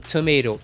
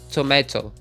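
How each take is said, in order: First: It is said in an American accent. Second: It is said in a British accent. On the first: This is not how the British say it. "eles não falam tomato" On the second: This is how the British say it. "eles falam tomato"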